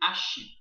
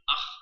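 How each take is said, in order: First: The syllable ends in a soft sh sound. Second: The syllable ends in a harsh throaty sound. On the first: The speaker calls it wrong. "aqui também não vai ser Ashi" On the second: The speaker calls it right. "vai ser Ar"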